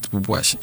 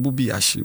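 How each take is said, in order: First: "Bubuashi" run together with oo before ashi; corrupted pronunciation. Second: "Bubi Ashi" with an ee before Ashi; original pronunciation. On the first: Host shows children the spoiled name, "Bubuashi" run together. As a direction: say "Bubuashi" as one word, boo-bwah-shee. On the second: Host teaches children the name, "Bubi Ashi" with boo-bee. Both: Shown as a demonstration. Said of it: "the people have spoiled the name".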